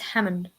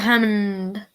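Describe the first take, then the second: First: The M sound is short. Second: The M sound is held long. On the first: The speaker calls it right. "It's Hammond" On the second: The speaker calls it wrong. "Why do I always go Hammond? ... I always drag out my M"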